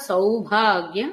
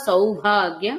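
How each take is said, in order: The two takes are said the same way.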